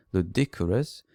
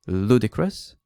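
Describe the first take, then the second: First: Ludicrous stressed on the second syllable, lu-DI-crous; imitating a learner saying ludicrous as lu-DI-crous; wrong stress imitated. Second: Ludicrous stressed on the first syllable, LU-di-crous; teacher demo, ludicrous as LU-di-crous with a slight rise; correct stress shown. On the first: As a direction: copy the student's mistake: ludicrous with stress moved off the first syllable. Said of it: "putting the stress on the wrong syllable".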